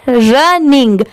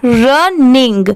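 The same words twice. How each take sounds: First: running said quickly in one go; running at speed. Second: running said slowly, syllable by syllable; slow running. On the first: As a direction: read running at normal speed, smoothly. (Running speed में, एक साथ) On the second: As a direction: stretch out running slowly like a teacher. (Running धीरे-धीरे, अलग-अलग करके) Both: Shown as a demonstration. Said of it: "इसे speed में पढ़ेंगे".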